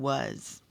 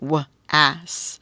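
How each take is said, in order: First: The vowel is a reduced schwa 'uh' sound. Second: The vowel is a full open 'ah' sound. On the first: The speaker calls it right. "It makes the schwa sound" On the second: The speaker calls it wrong. "this looks like the word was"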